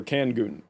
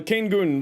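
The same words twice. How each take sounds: First: Kangun said KANG-gun, short A as in can, hard g; corrected name. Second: Kangun said KANE-kun, long A as in cane; first try at the name. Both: Real, not acted. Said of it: "Or Kangun".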